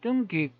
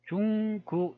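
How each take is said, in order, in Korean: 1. 된소리 'tt' 소리로 시작합니다. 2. 부드러운 'j' 소리로 시작합니다. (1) "다르게 읽으면 뚱귀 이렇게 되잖아요" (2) "현대식 발음으로 그대로 읽으면"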